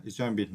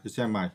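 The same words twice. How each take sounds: First: "examine" with a short, unstressed ending, not "mine"; correct pronunciation. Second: "examine" with the last syllable like "mine"; mispronunciation. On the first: Teacher showing learners the right word, "examine" with a short "min" ending. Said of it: "We pronounce". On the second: Teacher showing the mistake to avoid, "examine" mispronounced with a "mine" ending. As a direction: say "examine" wrongly, ending in a long "eye" sound. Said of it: "not, uh". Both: Shown as a demonstration.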